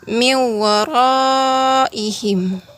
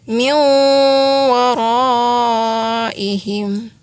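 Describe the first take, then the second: First: The merged n is short with no nasal hum. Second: The merged n is nasalized and held two beats. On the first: The speaker calls it wrong. "tidak didengungkan dan tidak ditahan dulu dua harokat" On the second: The speaker calls it right. "lalu didengungkan dan ditahan dua harokat atau dua ketukan"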